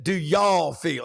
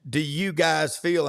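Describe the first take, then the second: First: Slow, drawn-out Southern "y'all"; host's Southern version, drawn out. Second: Said in the usual way. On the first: Retold or imitated. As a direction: lean into the Southern "y'all" slowly. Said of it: "And I said". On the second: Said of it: "he had said".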